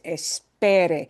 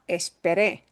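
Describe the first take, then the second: First: The stress is on the second-to-last syllable. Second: The stress is on the last syllable. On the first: It is a command to wait. The speaker calls it right. "There, second from the end" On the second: The waiting happened in the past. The speaker calls it wrong. "It's not esperé, I waited"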